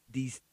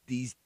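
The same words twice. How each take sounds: The two takes are said the same way.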